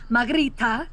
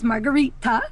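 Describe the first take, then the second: First: The name is said with a Spanish-style accent. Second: The name is said with a plain English accent. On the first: "they think she has a Spanish accent or a Portuguese accent" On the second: "Her name is Margarita"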